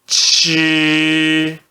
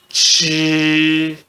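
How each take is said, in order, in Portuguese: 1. É dito com o primeiro tom. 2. É dito com o primeiro tom.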